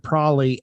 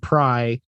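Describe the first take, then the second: First: The word is said in a shortened form. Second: The word is cut down to one syllable. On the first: "to probably" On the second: "and then pry"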